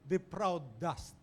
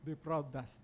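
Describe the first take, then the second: First: Said in the usual way. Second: The title repeated softer and lower; quiet echo. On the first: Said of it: "he entitled his sermon". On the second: Shown as a demonstration. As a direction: let the title sink in, quietly.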